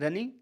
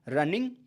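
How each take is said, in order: First: The final g sound is dropped. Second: The final g sound is fully pronounced. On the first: This is how men say it. "पुरुष जी का उच्चारण करते नहीं है" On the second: This is how women say it. "लड़कियां पूरा बोलेंगी"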